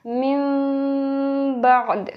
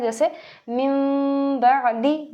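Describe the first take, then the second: First: मिम बअद with a pause ending, final दी dropped; stop reading. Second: मिम बअदी read joined, ending on दी. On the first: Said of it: "इसका वक्फ होगा". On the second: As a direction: keep going through बअदी without a stop. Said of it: "पहले मैंने वसल के साथ पढ़ा है". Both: Shown as a demonstration.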